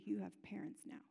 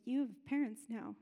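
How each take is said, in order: First: Put-on soft whisper to the child; mother whispers comfort to her son in hospital; whispered reassurance. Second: Said in the usual way. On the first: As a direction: breathe it to him gently.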